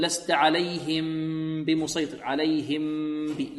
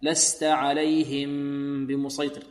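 First: عليهم بمسيطر with the lips squeezed hard together; lips clenched wrongly. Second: Slow عليهم بمسيطر with the lips closed gently, without strain; natural lip closure. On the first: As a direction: clench the lips too tight on the ميم. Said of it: "البعض يكز الشفتين". (كز الشفتين خطأ) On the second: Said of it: "مكملًا من غير ما تكلف". (من غير تكلف) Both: Shown as a demonstration.

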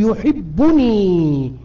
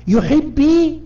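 First: يحبني said slowly with the nun clearly pronounced; correct form slowly. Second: يحبي said without the nun, pitched high as the mistake; mock the wrong يحبي, ending on a bare ي; wrong form shown. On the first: Teacher to class, giving the correct form slowly. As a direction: spell out يحبني deliberately, nun and all. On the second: Teacher showing students the wrong form, high and mocking. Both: Shown as a demonstration. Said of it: "لا نقول".

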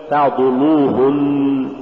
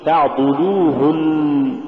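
First: Slow تعضلوهن with a thick, dark lam; wrong heavy lam. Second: Slow تعضلوهن with a thin, light lam; correct light lam. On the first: Teacher shows the error to avoid, heavy lam in تعضلوهن. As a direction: let the ض darken the ل in تعضلوهن. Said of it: "ولا تقل". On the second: Teacher models the correct word, light lam in تعضلوهن. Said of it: "قل". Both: Shown as a demonstration.

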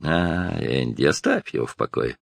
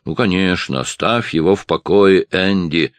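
First: Grumbling barman. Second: Higher, a touch louder ironic repeat; mocking echo. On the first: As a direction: grumble it wearily. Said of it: "проворчал бармен". (ворчливо, ниже и тише) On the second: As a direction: echo the barman with irony. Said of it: "повторил Ральф". (насмешливо повторяя за барменом) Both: A narrator's reading.

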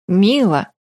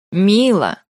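First: Mildly startled name call; surprised. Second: "Мила" repeated with firm pressure; insistent, pressed. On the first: Рай reacting to her announcement, mildly surprised. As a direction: say "Мила" in mild surprise. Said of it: "удивился Рай". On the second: Рай repeating "Мила" to her, said with pressure. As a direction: lean on "Мила" as a firm prompt. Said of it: "с нажимом повторил Рай". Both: A narrator's reading.

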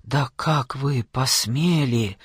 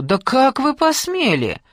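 First: Hissed. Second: Pitched high, loud and slowed, outraged; furious shout. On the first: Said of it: "прошипела она". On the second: Aunt screaming at her niece's husband in outrage. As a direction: fling the question at him in fury. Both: A narrator's reading.

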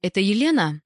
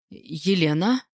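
First: Slightly raised, tentative question; a touch of hesitancy; timid enquiry. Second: Milder, more guarded voice; softened phone response; changed tone. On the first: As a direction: ask shyly who is on the line. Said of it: "робко сказал незнакомый женский голос". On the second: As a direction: drop the firm tone for polite reserve. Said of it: "Я сменила тон". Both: A narrator's reading.

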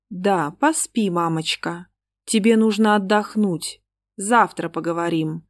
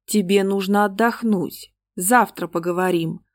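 First: Cold eerie voice. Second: Put-on echoed cold child voice. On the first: Acted. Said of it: "таким холодным, кошмарным голосом". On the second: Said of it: "заглушил этих двоих голос Вадика".

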